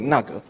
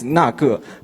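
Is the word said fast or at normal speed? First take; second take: fast; normal. First: The word is said very quickly and run together. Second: The word is said at a normal, careful speed.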